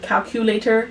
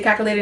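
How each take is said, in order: First: The word is said in its full, careful form. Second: The word is said in a reduced, easier form. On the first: "It just takes more effort" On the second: "It's just easier for me to say calculator"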